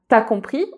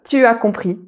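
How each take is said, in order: First: The vowel of tu is dropped. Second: The vowel of tu is fully pronounced. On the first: "T'as compris au lieu de" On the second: "au lieu de tu as compris"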